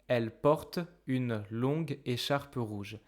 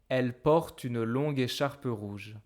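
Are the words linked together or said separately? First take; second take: separately; linked. First: Each word is said separately, without linking. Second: The words are merged together into one flow. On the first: The speaker calls it wrong. "I don't speak like this. That's horrible" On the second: The speaker calls it right. "I will instead merge porte with une"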